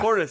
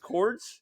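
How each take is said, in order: First: The name is said as two syllables. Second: The name is said as one syllable. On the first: The speaker calls it right. "Cordis. Okay, very good" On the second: The speaker calls it wrong. "I'm going to say Cords. Did I say that right?"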